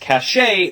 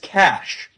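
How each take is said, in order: First: The word does not sound like 'cash'. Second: The word sounds exactly like 'cash'. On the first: The speaker calls it wrong. "some people mispronounce as cachet" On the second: The speaker calls it right. "should be pronounced as cash, like the money"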